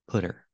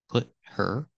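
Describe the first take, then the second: First: The T is a quick D-like flap. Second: The T is cut off as a stop. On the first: "you can make the T a fast D" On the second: "make the T a stop T"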